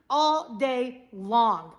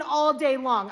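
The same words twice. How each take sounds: First: "all day long" slowly, word by word; slow, weighty "all day long"; drawn-out emphasis. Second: "all day long" with firm stress on "all"; emphatic "all day long", leaning on "all"; insistent repeat. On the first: Stretches phrase out for emphasis. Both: Shown as a demonstration.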